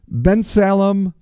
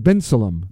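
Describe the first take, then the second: First: Bensalem said slowly as "BEN-sa-lem", the middle "sa" given a full "a" sound; careful first try, Bensalem with a full "sal"; first guess at the name. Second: Bensalem said with the middle reduced to "BEN-suh-lum"; quick corrected try, Bensalem with a weak "suh"; second guess at the name. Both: Shown as a demonstration. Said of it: "or is it Bensalem?".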